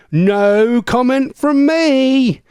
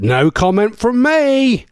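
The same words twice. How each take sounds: First: Very slow, high, stretched-out playful dodge; exaggerated mock diplomacy. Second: Slow, higher-pitched playful dodge; mock diplomatic. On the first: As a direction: stretch every word with hammed-up innocence. Repeats the joke dodge, stretched further. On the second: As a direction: draw it out with mock innocence. Mock-diplomatic reply to marriage joke.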